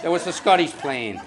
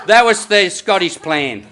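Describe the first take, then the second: First: Laughing echo. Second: Emphatic punchline. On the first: Punchline echoed with a laugh. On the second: Punchline said then echoed. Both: Real, not acted.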